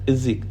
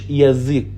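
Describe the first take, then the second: First: The first vowel is a reduced 'ee' sound. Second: The first vowel is a full 'ya' sound. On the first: The speaker calls it right. "بقول الزيك الزيك" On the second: The speaker calls it wrong. "ما بقولش يزيك ... لا ده غلط"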